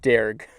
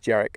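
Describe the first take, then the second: First: The word is said like plain 'derg'. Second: The word is said differently from plain 'derg'. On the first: The speaker calls it wrong. "I would have pronounced that Derg" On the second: The speaker calls it right. "but apparently it's Dearg"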